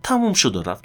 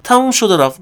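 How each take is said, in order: First: Softer, settled repeat; quiet close. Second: Higher, punchy and final; emphatic close. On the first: Repeating his own catchphrase to listeners, softer and settled. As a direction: let it fall away calmly. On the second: Ending his own advice with a firm, high flourish. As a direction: slam the point shut. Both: Acted.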